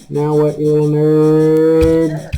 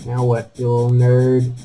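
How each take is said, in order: First: Slow, sing-song jeer at a little enemy; mock-taunting a monster, dragged out slowly; drawn-out mocking taunt. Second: Said in the usual way. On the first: Real, not acted. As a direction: stretch "nerd" out slowly, teasing.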